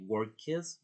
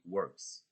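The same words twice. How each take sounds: First: "workes" said slowly with an extra syllable after the k; slow mistaken "workes", the ending voiced as its own syllable; wrong pronunciation demo. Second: "works" said slowly as one syllable ending in a crisp "ks"; one-syllable "works", slow and careful; correct pronunciation demo. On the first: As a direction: show the mistake, stretching "workes" into two syllables. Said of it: "you don't say workes". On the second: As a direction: model "works" with no vowel before the final s. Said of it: "but you say works". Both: Shown as a demonstration.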